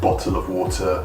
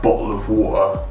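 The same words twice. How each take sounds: First: It is said in a standard way. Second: It is said in a local, regional way. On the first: This is the form people say less often there. "instead of" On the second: This is what people often say locally. "you'd often hear like"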